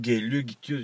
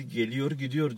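First: "geliyor gidiyor" with the final r dropped; local pronunciation. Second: "geliyor gidiyor" with each final r sounded; standard Turkish pronunciation. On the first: Host showing how locals say "geliyor gidiyor", final r dropped. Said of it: "biz geliyor gidiyor diyoruz". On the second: Host showing mainland "geliyor gidiyor", every final r sounded. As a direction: pronounce both r endings in "geliyor gidiyor". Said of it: "Türkiye'de geliyor gidiyor diyor". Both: Shown as a demonstration.

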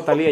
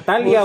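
First: "Talía" stressed on LI. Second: "Talia" stressed on TA; stress on first syllable. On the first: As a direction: say "Talía" as ta-LI-a, breaking the diphthong. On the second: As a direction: say "Talia" as TA-lia, without the accented i. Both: Shown as a demonstration. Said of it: "¿Lleva acento?".

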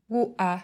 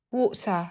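First: "water" with the t replaced by a glottal stop. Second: Said in the usual way. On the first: Shown as a demonstration. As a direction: block the air in the throat for the t in "water". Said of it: "chặn hơi ở cổ họng". ("water", chặn hơi ở cổ họng thay cho âm t) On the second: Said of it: "Ví dụ".

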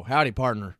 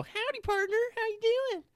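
First: Hick cowboy greeting. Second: Much higher, over-the-top cowboy twang; cowboy greeting. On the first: Retold or imitated. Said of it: "it depends on how you say it". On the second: Shown as a demonstration. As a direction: ham up a cartoon cowboy. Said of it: "there's the only way to say it".

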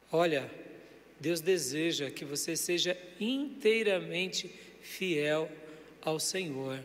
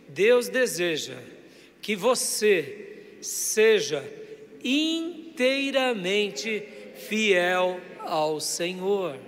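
First: Softly modelled line to repeat; gentle modelling. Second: Very slow, drawn-out phrases; emphatic call-and-repeat. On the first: Preacher giving the congregation words for their neighbour, gentle modelling. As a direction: say it softly, measured, for others to pass on. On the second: Preacher leading the congregation to tell their neighbour, slow and emphatic. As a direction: stretch each phrase so the congregation can repeat it. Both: Shown as a demonstration.

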